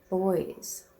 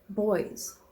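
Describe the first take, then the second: First: The word is said as a single syllable. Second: The same.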